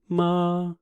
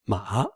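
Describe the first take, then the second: First: The pitch stays level and high. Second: The pitch dips down and then rises. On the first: "the first one is flat tone" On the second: "the tone goes down and bounce up"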